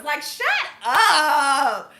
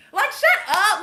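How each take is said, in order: First: Slow, drawn out through a laugh; laughing shut up. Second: Higher and louder, fed-up shout; exasperated shout. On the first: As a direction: say it while laughing at them. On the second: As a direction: snap it loud and fed up. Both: Real, not acted. Pet peeve about gender wars.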